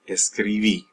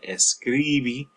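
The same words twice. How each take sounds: First: The stress falls on the final syllable. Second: The stress falls before the final syllable. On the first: The speaker calls it right. "stress on that last syllable" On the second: The speaker calls it wrong. "it's not escribí"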